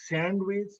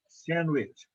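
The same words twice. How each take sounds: First: The d in the middle is pronounced. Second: The d in the middle is dropped. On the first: The speaker calls it wrong. "not sandwich" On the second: The speaker calls it right. "The is silent here"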